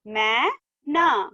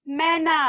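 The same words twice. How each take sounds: First: "मै... ना" slowly with a gap; syllable by syllable. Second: "मैना" blended, pitched higher; joined word. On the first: Teacher reading matra words to class, "मै - ना" split. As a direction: break "मैना" into two drawn-out syllables. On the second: Teacher completing the word for class, "मैना" joined up. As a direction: run "मैना" together as one word. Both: Shown as a demonstration. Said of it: "इस तरह से read करेंगे".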